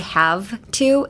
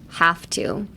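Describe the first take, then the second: First: The word 'have' ends in a voiced V sound. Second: The word 'have' ends in a voiceless F sound. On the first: The speaker calls it wrong. "you don't have to say have to" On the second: The speaker calls it right. "it's half"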